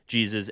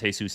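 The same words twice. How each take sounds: First: It is said with the English J sound. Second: It is said with the Spanish H-like sound.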